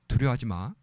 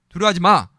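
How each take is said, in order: First: It sounds gentle and reassuring, like a comfort. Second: It sounds stern and commanding, like a rebuke. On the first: It reassures the listener and offers support. "위로죠" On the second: It scolds the listener for being afraid. "두려워하지 말라고 명령입니다"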